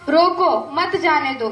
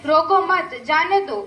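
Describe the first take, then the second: First: There is a pause after 'roko'. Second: There is a pause after 'mat'.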